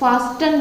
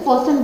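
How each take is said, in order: First: The t sound in the middle is pronounced. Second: The t sound in the middle is silent. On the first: The speaker calls it wrong. "फास्टन नहीं बोलते" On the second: The speaker calls it right. "फोसन बोलते हैं"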